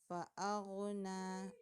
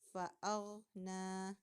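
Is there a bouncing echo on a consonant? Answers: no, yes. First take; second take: yes; no. First: The consonant is said with a bouncing echo. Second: The consonant is said smoothly without a bounce. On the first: The speaker calls it wrong. "membaca mantul" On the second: The speaker calls it right.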